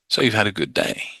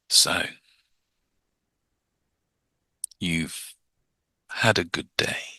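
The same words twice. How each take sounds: First: It is said quickly and briskly. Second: It is said slowly and drawn out.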